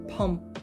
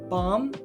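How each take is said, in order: First: It starts with P and has an 'uh' vowel. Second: It starts with B and has an 'ah' vowel. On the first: The speaker calls it right. "it's pronounced pum" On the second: The speaker calls it wrong. "it's not pronounced bomb"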